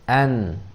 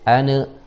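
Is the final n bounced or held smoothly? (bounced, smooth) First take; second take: smooth; bounced. First: The n is held smoothly without a release. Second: The n is released with a bouncing vowel. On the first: The speaker calls it right. "harus an, tawassut, mengalir" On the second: The speaker calls it wrong. "jangan mantul"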